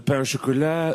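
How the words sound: It is said in a put-on French accent. The speaker calls it right. "you have to briefly pretend to be French"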